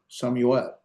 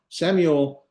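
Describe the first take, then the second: First: Samuel said the Hebrew way, opening on "sah"; Hebrew pronunciation. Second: Said in the usual way. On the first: Shown as a demonstration. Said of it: "his name in Hebrew".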